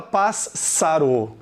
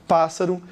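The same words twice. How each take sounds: First: Pássaro with a long doubled s. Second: Said in the usual way. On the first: Shown as a demonstration. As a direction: stretch the ss in pássaro. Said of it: "você não dobra". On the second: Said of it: "você não fala pássaro".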